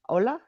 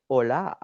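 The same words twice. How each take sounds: First: "Ola" as OH-luh, rising as a question; first-syllable stress. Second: "hola" as oh-LAH, silent h, long last vowel; second-syllable stress. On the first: Asking a viewer how the name is said, "Ola" as OH-luh. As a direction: stress the O of "Ola", light short ending, pitched up. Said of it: "Is that how you say your name?". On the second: Offering a viewer another way to say the name, "hola" as oh-LAH. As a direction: lean on the end of "hola": oh-LAAH. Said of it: "Or can I say hola?". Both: Shown as a demonstration.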